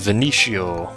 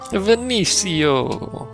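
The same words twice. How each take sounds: First: The name is said in a plain accent. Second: The name is said in an Italian-style accent.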